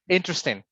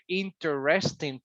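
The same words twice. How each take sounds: First: Some syllables are shortened or dropped. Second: Every syllable is pronounced clearly and distinctly. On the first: "But everyday speaking" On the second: "if you really, really want to emphasize"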